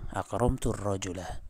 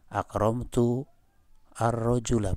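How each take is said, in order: First: The words are linked with the hamza dropped. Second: The hamza of al is pronounced separately. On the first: The speaker calls it right. "saqatatil hamzatu" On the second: The speaker calls it wrong. "Bukan gini"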